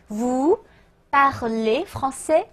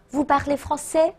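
First: French question drawn out, pause after vous; slow word-by-word model. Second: Said in the usual way. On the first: Shown as a demonstration. Teacher building a question for learners, slow word-by-word. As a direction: separate each word slowly, rising at the end. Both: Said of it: "请大家自己直接拼读啊".

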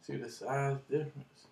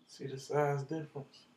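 The two takes are said the same way.

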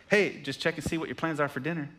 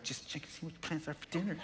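First: Said in the usual way. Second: Much softer, mocking mimic through a laugh; mocking repeat. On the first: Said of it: "my phone dings". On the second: Pastor mocks wife's text to himself, softly mocking. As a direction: parrot the text back with a snicker. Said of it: "I'm like".

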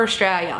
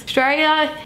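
First: Said in the usual way. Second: "Australia" cut down to "Straya"; shortened Australia. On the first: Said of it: "is the term for Australia". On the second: Shown as a demonstration. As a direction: drop the first syllable of "Australia". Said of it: "we have to shorten everything".

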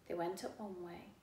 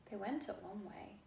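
Both takes have the same delivery.

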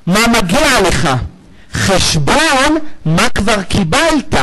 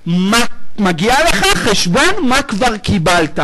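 First: Slow, deliberate. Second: Said in the usual way. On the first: Shown as a demonstration. Preacher explaining judgment to congregation, slow and weighty. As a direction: draw out מה מגיע לך and חשבון very slowly. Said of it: "יש מי שאמר דין". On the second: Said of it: "דין".

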